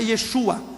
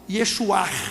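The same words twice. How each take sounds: First: The name ends on a plain vowel sound. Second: The name ends with a throaty R-like sound. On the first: The speaker calls it wrong. "não é Yeshua" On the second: The speaker calls it right. "tem que falar um R no final"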